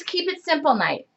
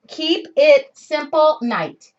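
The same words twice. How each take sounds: First: Said in the usual way. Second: "Keep It Simple night" slowly, each word set apart; slow emphasis. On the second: Real, not acted. Repeats the name for emphasis.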